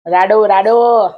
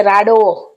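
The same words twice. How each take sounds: First: Slow, stretched રાડો, રાડો with a falling end; drawn-out repeat. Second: Said in the usual way. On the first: Retold or imitated. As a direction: drag out each રાડો like spelling it out. Friend repeats brand, drawn out. (રાડો, રાડો ધીમે ધીમે ખેંચીને)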